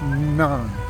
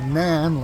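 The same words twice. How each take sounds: First: The vowel falls between 'none' and 'nan'. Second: The vowel sounds like the one in 'nan'. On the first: The speaker calls it right. "It's something that's right between that" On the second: The speaker calls it wrong. "it's not Nan like N A N"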